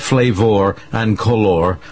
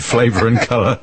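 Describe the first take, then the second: First: It is said in an American accent. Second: It is said in a British accent. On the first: "I will attempt to speak American" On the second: "instead of"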